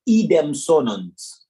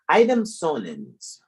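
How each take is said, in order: First: The first word begins with an 'ee' sound. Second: The first word begins with an 'eye' sound. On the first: The speaker calls it right. "The I is pronounced like E" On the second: The speaker calls it wrong. "let me stop pronouncing it wrong"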